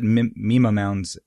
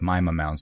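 First: The first syllable of Mima sounds like 'me'. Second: The first syllable of Mima sounds like 'my'. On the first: The speaker calls it wrong. "I called it Mima mounds at first as well" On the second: The speaker calls it right. "I'll have to go with Mima mounds because that's what a scientist said to do"

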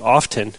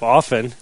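First: The T sound is pronounced in the middle. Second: The T sound is silent in the middle. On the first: The speaker calls it wrong. "You mean pronouncing my T's? Yeah" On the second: The speaker calls it right. "when they're supposed to be silent"

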